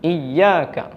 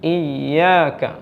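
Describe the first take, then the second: First: The ya sound is cut short without extension. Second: The ya sound flows on with a slight extension. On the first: The speaker calls it wrong. "ഈ സിഫത്ത് നഷ്ടപ്പെട്ടാൽ ഉണ്ടാവുന്നത്" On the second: The speaker calls it right. "അപ്പോൾ നാം ഉച്ചരിക്കേണ്ടത്"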